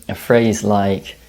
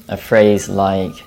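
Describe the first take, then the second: Both takes have the same delivery.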